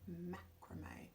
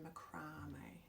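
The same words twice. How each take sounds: First: It is said the American way. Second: It is said the Australian way.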